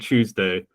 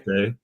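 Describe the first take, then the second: First: The word starts with a ch sound. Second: The word starts with t followed by y. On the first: "I guess I coalesce mine" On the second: "the very posh people saying"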